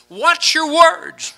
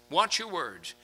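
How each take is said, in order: First: Slow, high emphasis. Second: Soft echo. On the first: Slow emphatic sermon quote. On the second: Repeated softly after emphatic take. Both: Acted.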